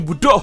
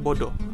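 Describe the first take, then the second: First: The vowels are u sounds. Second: The vowels are o sounds. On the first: "Kalau dekat Sabah kami sebut" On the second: "cakap awak nih bodoh"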